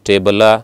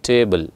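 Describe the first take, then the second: First: The word ends with an added A vowel. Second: The word ends on a bare L sound. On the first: The speaker calls it wrong. "ಲಾ ಅಲ್ಲ" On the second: The speaker calls it right. "ಲ್ not ಲಾ ಆರ್ ಲು"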